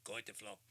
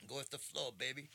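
First: Said in the usual way. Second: Higher, breezy, laid-back; cool laid-back drawl. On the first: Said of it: "Bruce Lee said it". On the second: Retold or imitated. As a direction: say it loose and easy. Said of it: "I like how he said it".

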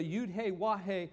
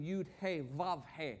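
First: "Yud He Wah He" with a W in "Wah"; Hebrew pronunciation. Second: "Yud He Vav He" with V sounds in "Vav"; German pronunciation. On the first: Teacher tracing Jehovah to the Hebrew letters, Hebrew pronunciation. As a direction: say the third letter of "Yud He Wah He" as "Wah", not Vav. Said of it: "in Hebrew down here". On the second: Teacher showing what Germanic scholars said, German pronunciation. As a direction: say the third letter of "Yud He Vav He" as "Vav", not Wah. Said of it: "they used the German pronunciation". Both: Shown as a demonstration.

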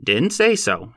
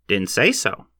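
First: A quick, curt correction; sharp reply. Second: Said in the usual way. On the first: A narrator's reading. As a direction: say pushed higher and snapped off with a falling end. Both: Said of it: "he replied sharply".

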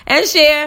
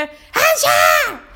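First: Said in the usual way. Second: High-pitched mimicked shout; mock kid yell; imitating yelling student. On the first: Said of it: "I'll just start saying". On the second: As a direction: holler the echo like an overexcited pupil. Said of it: "walking around the room yelling".

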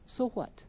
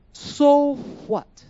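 First: "So what?" dropped to a much softer repeat; hushed, deflated "So what?"; quiet echo. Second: "So what?" thrown out higher and louder; loud, higher rhetorical "So what?"; louder challenge. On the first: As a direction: let the second "So what?" fall away softly. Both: Acted.

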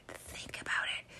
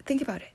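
First: Very soft, voiceless whisper; secretive full whisper. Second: Hushed, higher urging, partly whispered. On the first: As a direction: whisper it like a forbidden thought. Repeats the taboo thought whispered. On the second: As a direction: drop toward a whisper to confide it. Confiding a taboo thought. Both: Real, not acted.

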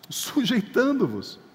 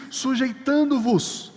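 First: Said in the usual way. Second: Slow, weighted sujeitando-vos, every syllable stretched; drawn-out quote. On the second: Shown as a demonstration. Preacher to congregation, quoting the text slowly. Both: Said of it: "Por isso que o texto diz".

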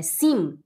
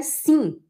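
First: Sim ending on a firm hummed m; closed M. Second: Sim with open nasal vowel, no closed m; nasal Portuguese sim. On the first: Teacher imitating Germans, sim with fully sounded m. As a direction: lower "sim", lips shut at the end. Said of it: "é sim". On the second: Teacher showing Portuguese sound, sim left open and nasal. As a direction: say "sim" as "see(ng)". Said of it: "não é sim". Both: Shown as a demonstration.

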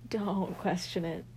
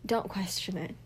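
First: Said in the usual way. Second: Whispered "Don't question it.". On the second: Shown as a demonstration. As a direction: breathe it out in a whisper.

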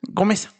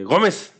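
First: Gómez said gringo-style, stressed GO flat; Gómez in a gringo accent; American accent. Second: Put-on Gómez with a gringo accent, the r-less flat vowels; American accent. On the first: Retold or imitated. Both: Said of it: "Pero en acento gringo". (Gómez con acento gringo)

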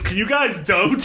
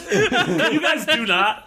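First: Said in the usual way. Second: "do not" said slowly, split apart, through laughter; stress on do not. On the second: Shown as a demonstration. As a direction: stretch out "Can you guys do not" word by word. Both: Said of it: "the sentence without it is".

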